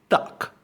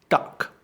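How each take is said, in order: Both takes have the same delivery.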